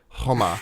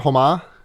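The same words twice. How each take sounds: First: The name begins with a harsh, throaty kh sound. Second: The name begins with a soft, plain h sound. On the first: "you just put a little stank on the huh" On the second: "the K is silent in his name"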